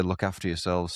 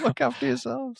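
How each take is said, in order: First: Said in the usual way. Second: Very high, silly put-on voice; mock sign-off. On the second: Host joking a goodbye to listeners, silly high voice. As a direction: squeak it out far above your usual pitch.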